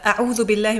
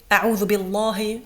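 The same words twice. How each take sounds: First: The L in Allah is light and thin. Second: The L in Allah is heavy and thick. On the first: The speaker calls it right. "So this is a light Allah" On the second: The speaker calls it wrong. "We don't say"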